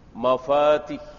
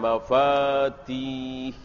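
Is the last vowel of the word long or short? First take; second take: short; long. First: The vowel before the final h is short. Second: The vowel before the final h is long. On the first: The speaker calls it right. "Di sini pendek" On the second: The speaker calls it wrong. "bukan mafatih"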